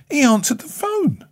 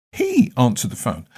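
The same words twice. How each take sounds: First: Much higher, amazed pitch. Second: Said in the usual way. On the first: Real, not acted. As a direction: sound genuinely astonished he answered. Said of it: "I was not expecting him to answer the phone".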